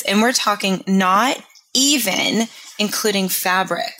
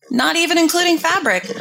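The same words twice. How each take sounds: First: Said in the usual way. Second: Incredulous squeak. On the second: Acted. Repeats phrase in disbelief.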